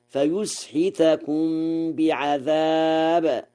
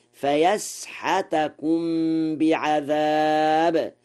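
First: Said in the usual way. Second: Slow فيسحتكم with open a vowels on the y and the h, fayasḥatakum; Warsh reading. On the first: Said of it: "قرأ ورش". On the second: Shown as a demonstration. Scholar slowly demonstrates Warsh fayasḥatakum to radio listeners. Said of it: "بفتح الياء والحاء".

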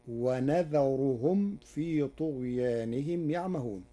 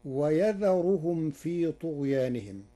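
First: ونذرهم with nun "wa-nadharuhum"; Warsh reading. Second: ويذرهم with ya "wa-yadharuhum"; Hafs reading. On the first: Sheikh demonstrating Warsh's nun in ونذرهم. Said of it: "بنون العظمة". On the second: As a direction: recite ويذرهم with initial ya. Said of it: "قرأ ورش كلمة ويذرهم". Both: Shown as a demonstration.

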